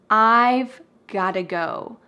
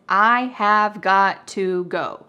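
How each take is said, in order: First: 'I have' is contracted and 'got to' reduced. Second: Every word is said fully, with no contraction. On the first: "we make a contraction with I have" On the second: "Grammatical expression"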